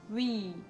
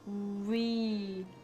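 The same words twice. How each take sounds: First: The vowel is said at normal speed. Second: The vowel is drawn out slowly. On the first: "Wenn man normal spricht" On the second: "Wenn man ganz langsam spricht"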